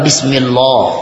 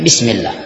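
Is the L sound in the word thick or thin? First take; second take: thick; thin. First: The L in Allah is heavy and thick. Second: The L in Allah is light and thin. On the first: The speaker calls it wrong. "bukan bismillah" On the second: The speaker calls it right. "Tapi bismillah. Tipis"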